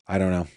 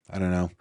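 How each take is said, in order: Both takes have the same delivery.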